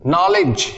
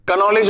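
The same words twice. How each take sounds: First: नॉलेज starting on the n; correct knowledge. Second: कनॉलेज with the K sounded; wrong reading of knowledge. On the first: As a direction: say नॉलेज with the K silent. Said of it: "के silent हो जाता है". (नॉलेज, K silent सही उच्चारण) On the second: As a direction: add a "ka" before the n in कनॉलेज. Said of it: "कनॉलेज बोल देते हैं". (कनॉलेज, K बोलकर गलत उच्चारण) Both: Shown as a demonstration.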